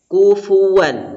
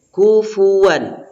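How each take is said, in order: Both takes have the same delivery.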